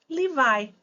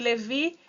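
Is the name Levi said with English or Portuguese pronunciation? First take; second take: English; Portuguese. First: The name is said with English pronunciation. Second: The name is said with Portuguese pronunciation. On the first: "em inglês nós dizemos Levi" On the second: "Da tribo de Levi"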